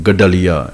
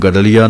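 First: ਗਡਲੀਆ as "gad-daliya", held double d; doubled d. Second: ਗਡਲੀਆ as "gadliya", single light d; without doubling. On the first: Teacher modelling pure reading, ਗਡਲੀਆ with doubled d. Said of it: "ਡੱਡੇ ਦੇ ਉੱਤੇ ਅੱਧਕ ਲਾ ਕੇ". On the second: Teacher showing wrong reading, ਗਡਲੀਆ with single d. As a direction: run ਗਡਲੀਆ together, no doubled d. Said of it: "ਹੁਣ ਇਹਨੂੰ ਗਡਲੀਆ ਨਹੀਂ". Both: Shown as a demonstration.

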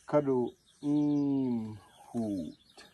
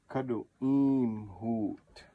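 First: Kadu im hoot drawn out slowly, each acute vowel lifted; slow syllable drill. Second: Kadu im hoot slowly, no up and down in the long vowels; slow careful Kadu im hoot, acute vowels held level; slow syllable drill. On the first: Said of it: "Isolate the A, short A". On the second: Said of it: "all these are acute accents". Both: Shown as a demonstration.

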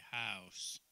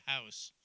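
First: "house" drawn out slow and low in a Southern drawl. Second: "house" said the Canadian way, crisp and short. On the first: Canadian preacher mimics Southern speech for the congregation, slow drawl. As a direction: stretch "house" lazily like a Southerner. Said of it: "Down south, they say house". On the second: Canadian preacher shows her church how she says it, crisp. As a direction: clip "house" quickly, Canadian style. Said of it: "In Canada, we say house". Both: Shown as a demonstration.

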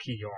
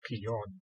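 First: Keon ending on a French nasal vowel, no hard N. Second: Keon ending on a plainly sounded English N; non-nasal N. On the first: Sword expert demonstrates French, Keon with a nasal N. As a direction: say Keon with the final "on" through the nose. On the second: Sword expert shows what to avoid, Keon with a hard N. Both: Shown as a demonstration. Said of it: "that sort of nasal N".

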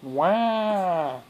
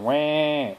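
First: Put-on loud, high American-accented baby wail. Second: Loud, drawn-out wah in the non-American accent; mock baby wail, without the American accent; own-accent wah. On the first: Parent tests baby's American accent, mock American-accented wail. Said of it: "How's your American accent?". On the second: Parent contrasts with American accent, own-accent mock wail. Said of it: "Instead of wah". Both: Shown as a demonstration.

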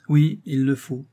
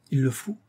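First: Louder, emphatic confirmation; insist, leaving him no choice; firm command. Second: "Il le faut" as a mild rising question; reluctant question. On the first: Comedienne orders her lover to kneel, firm. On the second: Lover comfortable on the sofa asks "Il le faut", reluctant. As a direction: ask "Il le faut" tentatively, lifting the end. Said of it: "interrogea le fermier général". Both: A narrator's reading.

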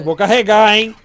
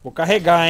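First: Repeated much louder to be heard. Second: Said in the usual way. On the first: Real, not acted. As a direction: say it again, loud and insistent.

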